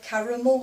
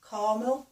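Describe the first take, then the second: First: The middle vowel is sounded, giving three syllables. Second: The middle vowel is dropped, giving two syllables. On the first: This is how it is said here. "We say caramel" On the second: Someone else said it this way. "he didn't pronounce the second A"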